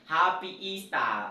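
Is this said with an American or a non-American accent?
non-American. It is said without an American accent. "instead of saying"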